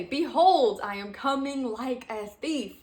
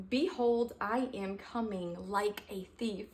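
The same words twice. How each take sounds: First: BEHOLD shouted out loud and high; exclamation mark. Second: Said in the usual way. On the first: Shown as a demonstration. Redoing the verse for the listeners with full exclamation. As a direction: proclaim it like it ends in an exclamation mark. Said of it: "Exclamation mark". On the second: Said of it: "Let's do it by three".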